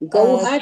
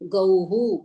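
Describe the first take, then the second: First: The word ends with an 'a' sound. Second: The word ends with a 'u' sound. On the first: The speaker calls it wrong. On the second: The speaker calls it right.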